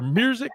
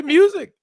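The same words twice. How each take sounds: First: MUSIC said as "murzic"; Memphis pronunciation. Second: Said in the usual way. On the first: Shown as a demonstration. Host quizzing a Memphis guest on her accent, Memphis pronunciation. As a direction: put an R sound into MUSIC, "murzic". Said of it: "we do say music". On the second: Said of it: "Say music or music?".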